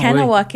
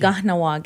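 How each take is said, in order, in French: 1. Ça commence par un K et il n'y a pas de H. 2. Ça commence par un G et il y a un H. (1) "c'est plus comme la prononciation francophone" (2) "il faut que vous prononcez le H, puis les K comme un G"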